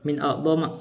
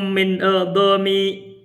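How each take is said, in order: First: The last word ends with an a vowel. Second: The last word ends with an i vowel. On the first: The speaker calls it right. "jadi bacanya min adama" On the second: The speaker calls it wrong. "kita baca bukan adami"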